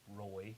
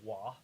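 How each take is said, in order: First: The name starts with a clear R sound. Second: The R is dropped, giving a W-like sound. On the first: This is the usual pronunciation. The speaker calls it right. "which is Roy in America" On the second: Someone else said it this way. The speaker calls it wrong. "he would say Wah"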